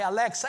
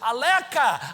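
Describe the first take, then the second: First: The middle consonant is a ks sound. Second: The middle consonant is a plain k sound. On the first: An adult says the name properly. The speaker calls it right. "Aí eu falo Macai" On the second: A small child is trying to say the name. The speaker calls it wrong. "ele não sabe falar Alexa, ele vê assim"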